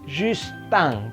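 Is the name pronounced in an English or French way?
French. It is pronounced the French way. The speaker calls it right. "maka Justin"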